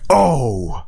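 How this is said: It sounds disappointed and sad.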